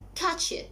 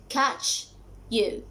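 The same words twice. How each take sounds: First: The two words blend together, like a sneeze. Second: The two words are said separately and clearly. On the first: The speaker calls it right. "the realistic pronunciation is catch you, as if you were sneezing" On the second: The speaker calls it wrong. "if you check these two words in a dictionary"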